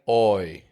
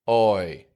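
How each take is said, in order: First: The vowel starts rounded, close to 'oh'. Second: The vowel starts rounded, close to 'oh'.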